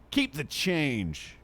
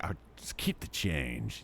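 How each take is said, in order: First: Slow, drawn-out, slightly higher keep the change; smug tipper. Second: Lower, softer, slow keep the change; cool and casual. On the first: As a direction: hand over two dollars like a grand gesture. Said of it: "What if he hands her, like, two dollars?". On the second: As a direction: toss it off like a big spender. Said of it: "I'm like". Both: Retold or imitated.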